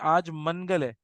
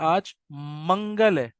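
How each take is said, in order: First: The n is pronounced as a full separate n. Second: The n is hidden as nasal sound in the nose. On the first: The speaker calls it wrong. "हम कभी भी मनगल नहीं कहते" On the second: The speaker calls it right. "हम कहते हैं आज मंगल है। ... नून छुप रहा है हमारी नाक में"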